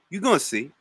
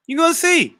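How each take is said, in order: First: Soft, muttered teasing promise; hushed knowing warning; quiet taunt. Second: Much higher sing-song taunt; high teasing singsong; high playful taunt. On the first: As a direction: say it under your breath, sure of yourself. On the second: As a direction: pop it up high and mock him. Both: Real, not acted. Teasing a chat member.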